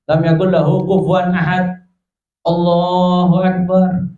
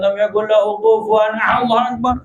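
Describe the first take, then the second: First: A short pause separates the two phrases. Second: The two phrases run together without a pause.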